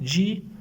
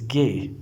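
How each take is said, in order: First: The letter is said with an 'ee' vowel. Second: The letter is said with an 'ay' vowel. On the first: The speaker calls it wrong. "This is not G" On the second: The speaker calls it right.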